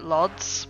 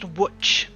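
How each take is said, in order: First: The name is said as spelled, like 'lodz'. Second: The name is said like 'wooch'. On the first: The speaker calls it wrong. "so we kept calling it Lodz" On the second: The speaker calls it right. "it's pronounced Łódź"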